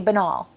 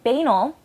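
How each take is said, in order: First: The ending does not sound like 'anal'. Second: The ending sounds like 'anal'. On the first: "they try to sound fancier and say banal" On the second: "saying it that way, it has anal in it"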